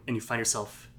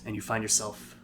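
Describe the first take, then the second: No difference in how they are said.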